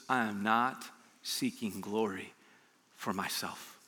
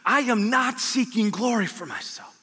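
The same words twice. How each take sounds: First: Low, slow and soft, reverent; hushed Jesus quote. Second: Higher and slow, declaring it; proclaimed Jesus quote. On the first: Preacher voicing Jesus to the congregation, hushed and slow. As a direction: let the words sink, quietly. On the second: Preacher voicing Jesus to the congregation, raised and declaring. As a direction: lift it up and proclaim every word. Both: Acted.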